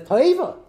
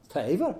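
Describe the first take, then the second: First: "Toiva" cried out high and loud; mock-outraged "Toiva"; exclaimed objection. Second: Said in the usual way. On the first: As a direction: fling out "Toiva" like a shocked challenge. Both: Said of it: "Tanna Kamma's kasha says".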